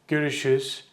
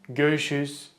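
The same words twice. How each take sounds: No difference in how they are said.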